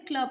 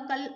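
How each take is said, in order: First: क्ल said tight as one cluster, no vowel between; teacher showing the right blend; blended reading. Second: कल said with a full vowel, as two syllables; deliberately wrong split of the blend; wrong reading. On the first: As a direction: run क्ल together as one sound. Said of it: "क्ल पढ़ते हैं". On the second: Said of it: "इसको कल नहीं पढ़ते हैं". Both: Shown as a demonstration.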